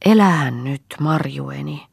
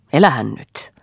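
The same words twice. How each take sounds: First: "Elähän nyt" coaxing, with a gentle rising tune; relenting mistress soothing Marja, "Elähän nyt" lifted and tender. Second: "elähän nyt" pressed down with a falling, scolding tune; firm falling "elähän nyt". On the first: A narrator's reading. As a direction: soften and coax her back with "Elähän nyt". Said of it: "oli jo heltynyt". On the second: Acted. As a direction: lean on "elähän" and let it drop, sternly. Old mistress scolds Marja.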